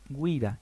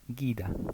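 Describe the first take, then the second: First: The u after the g is pronounced. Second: The u after the g is silent. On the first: The speaker calls it right. "la u se pronuncia" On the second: The speaker calls it wrong. "y no"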